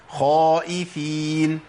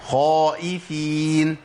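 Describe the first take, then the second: First: The first consonant is pronounced heavy and full. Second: The same.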